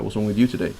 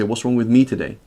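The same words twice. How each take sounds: First: Asked flatly, blaming the other person; demanding, putting the fault on them; blunt accusing question. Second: Asked gently, turning the question on herself; sincerely worried she caused it; concerned self-questioning. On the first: Wife confronting a frowning husband, blunt and accusing. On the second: Wife asking her frowning husband, gently concerned. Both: Shown as a demonstration. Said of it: "So how is she saying".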